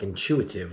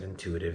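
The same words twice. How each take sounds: First: The word has a 'ch' sound in it. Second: The word has a plain 't' sound in it. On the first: "It sounded like intuitive. Why did it have a C H?" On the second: "It didn't sound like she said intuitive"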